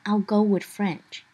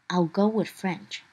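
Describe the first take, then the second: The two takes are said the same way.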